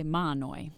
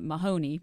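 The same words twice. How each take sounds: First: "Mahanoy" as MAH-noy, two syllables; local pronunciation, silent H. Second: "Mahoney" as muh-HOE-nee, H sounded; nonstandard variant. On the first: Reporter teaching how locals say it, "Mahanoy" with silent H. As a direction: drop the H and middle vowel in "Mahanoy". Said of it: "a silent H". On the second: Reporter citing what some people call it, "Mahoney" as muh-HOE-nee. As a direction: stress the middle syllable of "Mahoney". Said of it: "some people even call it". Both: Shown as a demonstration.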